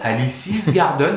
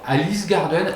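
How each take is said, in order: First: Alice is said with an s sound after it. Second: Alice is said with no s sound after it. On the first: "moi je dis Alice's parce qu'il y a apostrophe S" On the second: "toi tu dis Alice Garden"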